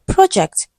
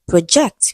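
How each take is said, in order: First: "Project" as PRO-ject, high then falling; stress on first syllable. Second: "Project" as pro-JECT; stress on second syllable. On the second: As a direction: put the weight on JECT in "Project". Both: Shown as a demonstration.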